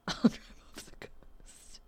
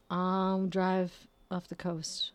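First: Laughing whisper. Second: Slow deadpan. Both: Real, not acted.

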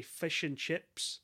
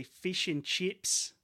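First: Slow New Zealand "fish and chips", fish said as "fush"; New Zealand accent. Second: Australian "fish and chips", slow, higher and rising; Australian accent. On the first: Podcaster demonstrating the test phrase for telling accents apart, New Zealand accent. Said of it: "that's New Zealand". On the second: Podcaster demonstrating the test phrase for telling accents apart, Australian accent. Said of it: "they're from Australia". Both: Shown as a demonstration.

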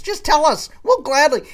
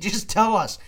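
First: "just tell us" shouted much higher and louder; loud exasperated "just tell us"; exasperated plea. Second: Said in the usual way. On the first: Real, not acted. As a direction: beg them at full volume, fed up. Pleading rant peak.

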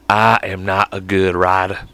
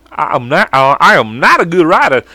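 First: Low, slow put-on drawl; character voice. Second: Character voice. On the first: Trying out a character voice, low and slow. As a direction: admit it slowly in a low put-on voice. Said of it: "that one I just did". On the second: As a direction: pitch it up into a comic character voice. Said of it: "I'm gonna do this voice". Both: Shown as a demonstration.

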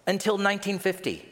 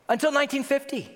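First: Said in the usual way. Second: High-pitched, appalled repeat; can't-believe-it outburst; incredulous. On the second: Real, not acted. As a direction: repeat it in sheer disbelief, pitched way up. Repeats the date in disbelief.

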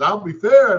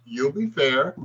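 First: Much higher, louder echo of disbelief; station manager echoing the new hire in disbelief; incredulous echo. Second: Said in the usual way. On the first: Retold or imitated. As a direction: repeat it as if you can't believe it.

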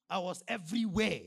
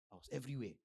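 First: Loud, insistent preaching; raised emphatic voice; emphatic claim. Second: Said in the usual way. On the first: Real, not acted. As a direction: proclaim it loudly to the congregation. Emphatic claim, then calmer repeat.

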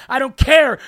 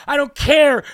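No difference in how they are said.

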